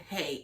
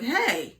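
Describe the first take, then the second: First: Understated dad "hey". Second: Raised, firm "hey" without yelling; commanding dad. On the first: Dad settling wild kids with one word, understated. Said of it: "He just said". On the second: Dad walking in on wild two-year-olds, commanding. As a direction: call the room to order in one word. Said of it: "He didn't even yell". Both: Retold or imitated.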